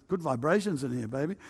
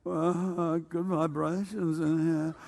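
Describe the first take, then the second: First: Laid-back hippie, softer than usual; hippie talk. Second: Slow, soft, spaced-out hippie drawl; exaggerated hippie talk. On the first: Retold or imitated. Hippie telling his friend Chris about the feeling, mellow hippie talk. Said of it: "we talk like that". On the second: Mocking how his hippie friend really talked, slow hippie drawl. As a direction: stretch it out like a dazed hippie. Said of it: "you didn't quite talk like that. You went".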